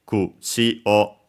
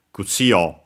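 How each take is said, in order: First: "Kutsi o" rising on tsi, staying high on o; unaccented "Kutsi o", no drop on the final o; low-high-high pitch accent. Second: "Kutsi o" rising on tsi, dropping on o; accented "Kutsi o", pitch falls on the final o; low-high-low pitch accent. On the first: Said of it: "so low, high, high". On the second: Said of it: "low, high, low". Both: Shown as a demonstration.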